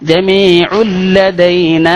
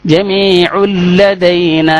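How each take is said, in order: The two takes are said the same way.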